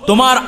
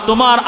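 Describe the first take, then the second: The two takes are said the same way.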